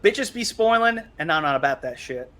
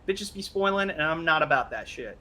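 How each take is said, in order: First: It is said in a deeper, more masculine voice. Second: It is said in a lighter, less aggressive voice.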